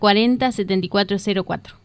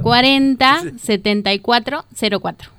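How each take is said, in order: First: It is said fast and hurried. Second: It is said slowly and clearly.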